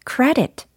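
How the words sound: It is said with English pronunciation.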